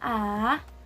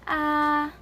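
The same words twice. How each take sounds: First: The pitch goes down in the throat. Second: The pitch stays level and flat. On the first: "your throat sounds like it's also going downwards" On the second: "the first tone ... looks like a dash"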